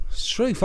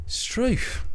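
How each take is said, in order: First: Said in the usual way. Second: Whispered. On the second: Shown as a demonstration.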